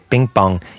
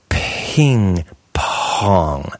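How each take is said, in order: First: The P sounds have no puff of air. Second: The P sounds have a puff of air. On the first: The speaker calls it wrong. "you kind of sound like someone who comes to English from Spanish" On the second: The speaker calls it right. "You puff the P"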